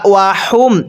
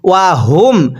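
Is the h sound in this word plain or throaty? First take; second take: plain; throaty. First: The h is a light, plain breath. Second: The h is voiced deep in the throat. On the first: The speaker calls it wrong. "এরকমভাবে পড়ি, পড়াটা শুদ্ধ হবে না" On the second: The speaker calls it right. "এই হাগুলো উচ্চারণ করার সময় গলার মধ্যে একটু আওয়াজ করে পড়তে হবে"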